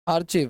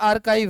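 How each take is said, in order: First: It is said with a ch sound: ar-chiv. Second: It is said with a k sound: ar-kive. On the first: The speaker calls it wrong. "आर्चिव नहीं पढ़ेंगे" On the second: The speaker calls it right. "आप लोग आर्काइव बोला करो"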